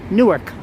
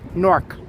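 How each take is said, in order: First: The word is said with two syllables. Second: The word is said with one syllable. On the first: The speaker is from New York. "I pronounce it Newark. I give it two syllables" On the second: The speaker is a local resident. "Newark residents pronounce it Nork"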